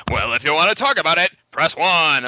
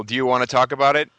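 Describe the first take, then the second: First: Loud, high hotline-announcer voice; Moviefone guy. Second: Said in the usual way. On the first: Retold or imitated. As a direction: blare it like a phone menu prompt. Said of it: "he actually really talks like that too". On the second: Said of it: "And I'm like".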